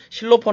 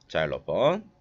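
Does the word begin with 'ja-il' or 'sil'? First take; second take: sil; ja-il. First: The word begins with a short 'sil' syllable. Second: The word begins with a gliding 'ja-il' sound. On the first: This is the local Korean reading of the word. The speaker calls it wrong. "실로폰을 그 우리나라에서 읽는 거고" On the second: This is the accurate Western pronunciation. The speaker calls it right. "정확한 발음 자일로폰이라고 얘기를 해줘야 돼요"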